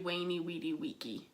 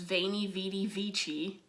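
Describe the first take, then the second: First: Each word begins with a W sound. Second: Each word begins with a V sound. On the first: The speaker calls it right. "the V's sound like W's in classical Latin" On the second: The speaker calls it wrong. "but it's incorrect"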